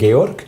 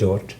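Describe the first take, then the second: First: The name is said the Swiss German way. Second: The name is said the English way. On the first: "en Suisse on parle Georg" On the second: "en anglais c'est George"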